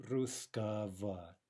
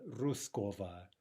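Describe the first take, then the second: First: Русского said slowly with reduced vowels; slow correct русского; correct form. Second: Русского with a full o; the wrong way, русского with o; wrong form. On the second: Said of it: "Sorry, not". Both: Shown as a demonstration.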